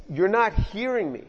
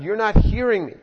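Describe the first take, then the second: First: Said in the usual way. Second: Louder and higher, pressing the point; insistent repeat. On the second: Retold or imitated. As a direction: say it again so he finally hears. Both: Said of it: "So God says it again".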